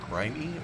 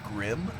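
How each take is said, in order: First: It is said like the word grimy. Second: It is said like the word grim. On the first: The speaker calls it right. "I think it's supposed to be grimy" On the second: The speaker calls it wrong. "I think I called it grim"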